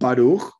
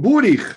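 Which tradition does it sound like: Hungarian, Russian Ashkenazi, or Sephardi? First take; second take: Sephardi; Hungarian. First: It is said in a Sephardi pronunciation. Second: It is said in a Hungarian Ashkenazi pronunciation.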